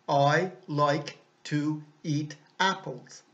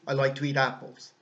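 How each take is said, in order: First: Each word is said separately, without linking. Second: The words are linked smoothly into each other. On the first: It sounds like a robot speaking. The speaker calls it wrong. "sans enchaînement" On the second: It sounds like natural everyday speech. The speaker calls it right. "On va enchaîner les mots, les lier"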